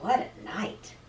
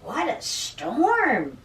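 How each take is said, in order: First: Softly muttered storybook line; muttering mole. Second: Slow, swooping bird exclamation; lilting, stretched storybook bird voice; twittering wren. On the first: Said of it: "Mole mutters". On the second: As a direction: draw it out like an amazed wren. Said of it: "twitters Wren". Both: A narrator's reading.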